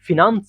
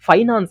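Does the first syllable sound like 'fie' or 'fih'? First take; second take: fih; fie. First: The first syllable has the short vowel 'ih'. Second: The first syllable has the vowel 'eye'. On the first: This is how it should actually be said. The speaker calls it right. "ಆದ್ರೆ actually ಫಿನಾನ್ಸ್ ಅಂತ ಮಾಡಬೇಕು" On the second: This is how most people say it. The speaker calls it wrong. "ಇದನ್ನ ಜಾಸ್ತಿ ಜನ ಫೈನಾನ್ಸ್ ಅಂತಾನೂ pronounce ಮಾಡುತ್ತಾರೆ"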